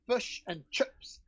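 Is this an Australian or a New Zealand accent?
New Zealand. It is said in a New Zealand accent.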